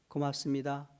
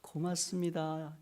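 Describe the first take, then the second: First: It is said flatly, without feeling. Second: It is said warmly, full of feeling. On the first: The thanks carries no real emotion. The speaker calls it wrong. "감정이 느껴져요?" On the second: The thanks conveys heartfelt affection. The speaker calls it right. "틀리죠? 닭살 돋아요?"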